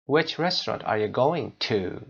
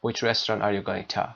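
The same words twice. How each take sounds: First: Slow question with "to" said fully as too; strong final "to". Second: Closing "to" reduced to a short tuh; weak final "to". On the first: Teacher modelling the correct question, full "to". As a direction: hold the oo in closing "to". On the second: Teacher showing what we don't say, reduced "to". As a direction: let "to" shrink to a schwa. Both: Shown as a demonstration. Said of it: "نمیگیم".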